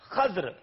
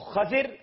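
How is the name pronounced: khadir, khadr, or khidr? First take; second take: khadr; khadir. First: It has one 'a' vowel before 'dr'. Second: It has an 'a' then an 'i' vowel. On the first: "دوسرے میں خا پہ زبر ہے مگر دود اور را ساکن ہیں" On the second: "ایک میں خا کے اوپر زبر ہے، دود کے نیچے زیر ہے"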